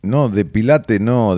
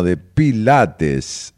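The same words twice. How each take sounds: First: Pilate said without the final s; dropped final s. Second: Pilates with a slow clear final s; final s pronounced. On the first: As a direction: say pilate, swallowing the s. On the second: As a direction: stretch out pilates, hitting the s. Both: Shown as a demonstration.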